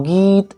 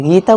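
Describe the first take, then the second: First: गीत with the ee stretched out; overlong ee. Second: Said in the usual way. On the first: Shown as a demonstration. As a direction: drag out the vowel in गीत. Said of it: "गीत ऐसे बोलते हैं". (गीत की ई खींचकर) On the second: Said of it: "गीता बोलते हैं ना".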